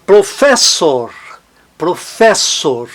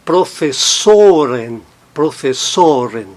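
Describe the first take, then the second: First: "professor" slowly, with a strong FES; stress on FES. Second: "professoren" with a long, strong SO; stress on SO. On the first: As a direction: lean on fes in "professor", keep or weak. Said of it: "não está no or a sílaba tônica". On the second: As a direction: shift the weight to so in "professoren". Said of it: "mas tônico no plural". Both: Shown as a demonstration.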